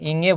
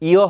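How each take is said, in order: First: The name has an ng-g consonant in the middle. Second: The name is two vowels with no consonant. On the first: The speaker calls it wrong. "এটা ইঙ্গে হবে না" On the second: The speaker calls it right. "ইও হবে"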